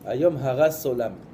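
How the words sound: The middle word ends with an s sound. Today you destroyed the world. "Eux ils disent ... le tav ils disent Samer"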